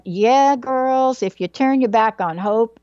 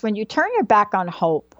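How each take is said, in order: First: Lively imitation of a Southern mom; Southern-accented mom talking to her girls; mom's Southern accent. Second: Said in the usual way. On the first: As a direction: give it a little Southern mother lilt. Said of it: "in a little Southern accent". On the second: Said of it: "she wouldn't say it quite like that".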